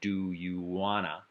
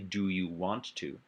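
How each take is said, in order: First: 'Want to' is squeezed into the shorter 'wanna'. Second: Every sound of 'want to' is pronounced in full. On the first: "we reduce the phonology. That is to say, we remove phonemes to increase fluency" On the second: "it's actually do you want to?"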